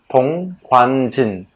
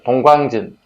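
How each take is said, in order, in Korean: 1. 이 이름은 천천히 읽힙니다. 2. 이 이름은 빠르게 읽힙니다. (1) "아주 천천히 읽어야만 발음이 제대로 된" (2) "한번 빨리 읽어볼까요? ... 발음 좀 이상하죠?"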